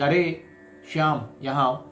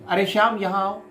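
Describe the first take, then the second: First: It is said in a normal voice. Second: It is said in a loud voice.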